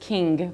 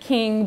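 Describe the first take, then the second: First: The final G sound is distinctly enunciated. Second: The final G sound is not distinctly enunciated. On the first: "on the East Coast it is king because you do enunciate the G" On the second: "I actually meant king"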